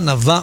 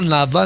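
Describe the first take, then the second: First: The stress is on the last syllable. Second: The stress is on the first syllable. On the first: The speaker calls it right. "נבה מלרע" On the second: The speaker calls it wrong. "לא נבה"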